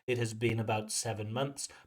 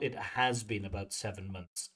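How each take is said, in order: First: The word has is said without stress. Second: The word has carries strong stress. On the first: The speaker calls it right. "if you want to use the full form" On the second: The speaker calls it wrong. "but not"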